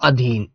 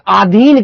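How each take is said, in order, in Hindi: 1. पहला स्वर छोटी 'a' आवाज़ है। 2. पहला स्वर लंबी 'aa' आवाज़ है। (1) "ऐसे अधीन बोलते हैं।" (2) "उसको आ की आवाज लगा देता है, जो गलत हो जाती है।"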